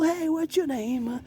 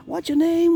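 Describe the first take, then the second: First: Very high, slow and soft spooky voice; hushed ghost voice. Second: Very high and louder squeak; loud ghost voice. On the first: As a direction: coo it slowly like a tiny ghost. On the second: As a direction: call it out high and bright like a ghost. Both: Pretend. High voice greeting ghost decorations.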